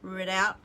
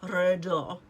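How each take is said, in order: First: The word is said with English-style sounds. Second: The word is said with French-style sounds. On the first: The speaker calls it wrong. "That's not how you say it" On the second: The speaker calls it right. "because it's French. So it's probably Redoubt or something"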